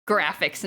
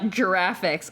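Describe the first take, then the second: First: The word starts with a hard G sound. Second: The word starts with a soft J sound. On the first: The speaker calls it right. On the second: The speaker calls it wrong.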